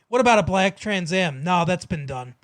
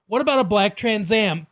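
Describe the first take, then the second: First: It runs straight on with no pause. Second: A clear pause follows the question.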